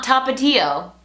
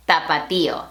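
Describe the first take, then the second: First: Tapatio slowly, stress on PA, tuh-PAH-tee-oh; English-style tapatio; anglicized tapatio. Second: Tapatío stressed on the í, ta-pa-TEE-o; Spanish tapatío. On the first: Teacher showing the wrong English way to say Tapatío. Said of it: "Not tapatio". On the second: Teacher modelling the stressed í in Tapatío. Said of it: "accent on that I". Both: Shown as a demonstration.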